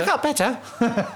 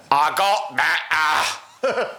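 First: High, slow sheepish peasant; film scene quote. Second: Put-on very slow, mangled Cajun accent. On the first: Acted. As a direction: draw out the punchline in imitation. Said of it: "Remember that scene where he's like". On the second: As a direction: stretch every vowel in horrible mock Cajun. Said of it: "the Cajun's version of that".

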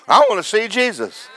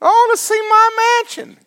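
First: Said in the usual way. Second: Much higher, mocking whine; mock greedy believer. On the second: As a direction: squeak it like a spoiled child begging for a prize. Mocking believer who wants riches.

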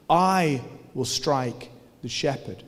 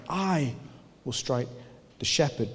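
First: "I will strike the shepherd", slow, with I leaned on; stress on I. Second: "I" set apart, then "will strike" and "the shepherd" softly after pauses; stress on I, spaced out. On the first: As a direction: lean on the word "I", slowly. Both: Shown as a demonstration. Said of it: "adds the first person pronoun".

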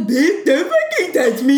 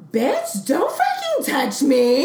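First: Louder, higher, drawn-out mocking mimicry; mocking echo. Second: Higher, drawn-out affronted gentrifier. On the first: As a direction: throw it back as a jeering imitation, half laughing. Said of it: "she looks at me and she goes". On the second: Retold or imitated. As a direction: imitate an outraged gentrifier, stretching the words. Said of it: "like, the gentrifier voice".

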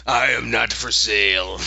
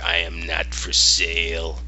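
First: Mild mock yell from the sidelines; Yorick. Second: Low, slow bear voice; Yorick. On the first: Voice actor yelling the bear's line from sidelines, mock-declaiming. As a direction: call it out jokingly, near usual pitch. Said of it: "yelling from the sidelines". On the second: Retold or imitated. Bear turns down girl's plea, low and slow. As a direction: drop low and refuse slowly, word by word. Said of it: "And he's like".

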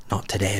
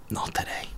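First: Softly, voiced, a touch lower; quiet brain voice. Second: Breathy whisper, no voice at all; whispered brain voice. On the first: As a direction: hush it down like a tired brain. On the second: Retold or imitated. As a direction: whisper it like your brain giving up. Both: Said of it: "My brain was like".

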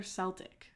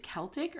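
First: "Celtic" with an S sound, SEL-tik; soft-C Celtic. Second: "Celtic" with a hard K, KEL-tik. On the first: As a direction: start "Celtic" like "sell". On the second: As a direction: start "Celtic" with a K sound. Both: Shown as a demonstration. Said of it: "Is it Celtic or Celtic?".

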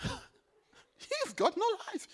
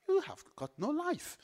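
First: Slow, high, laughing, leaning on "no"; laughing stress on no. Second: Said in the usual way. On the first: Shown as a demonstration. Preacher teasing those without the Son, laughing stress on no. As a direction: stretch out "no" with a laugh.

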